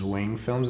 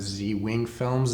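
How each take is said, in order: First: The Z blends into one syllable with wing. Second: The Z is said as a separate letter. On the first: It sounds like a brand. The speaker calls it right. "I pronounce it as" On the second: It sounds like a person's name. The speaker calls it wrong. "instead of"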